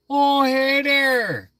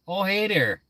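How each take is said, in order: First: Very slow, much higher drawn-out Minnesota "Oh, hey there"; full-on Minnesota caricature; exaggerated Fargo accent. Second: Higher Minnesota "Oh, hey there"; the Fargo-style greeting; lightly hammed Minnesotan hello; Minnesota accent. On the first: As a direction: stretch every vowel like in Fargo. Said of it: "Like that movie Fargo". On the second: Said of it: "I have an accent".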